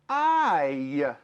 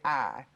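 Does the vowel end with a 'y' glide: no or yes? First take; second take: yes; no. First: The vowel ends with a short 'y' glide. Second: The vowel is a plain 'ah' without glide. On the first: The speaker calls it right. "You hear the little y, y at the end" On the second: The speaker calls it wrong. "we don't say I"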